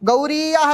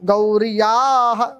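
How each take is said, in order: First: The ya is a separate syllable after long ri. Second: The ya joins the r in one cluster. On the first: The speaker calls it wrong. "అది గౌరీయాహ రాదు" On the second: The speaker calls it right. "ఒత్తు కింద వచ్చి మారిపోయింది"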